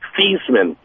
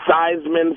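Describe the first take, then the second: First: The first syllable does not rhyme with Heisman. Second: The first syllable rhymes with Heisman. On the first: This was the original pronunciation. "he actually pronounced his name Theismann" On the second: The name was changed to match an award. "changed the pronunciation to Theismann for Heisman"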